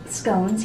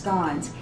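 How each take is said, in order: First: The vowel does not sound like lawn. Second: The vowel sounds like the vowel in lawn. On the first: This is how it is said in the US. The speaker calls it wrong. "We pronounce it scones here in the U S" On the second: This is the original pronunciation. The speaker calls it right. "it's actually pronounced scones. Think of your lawn outside"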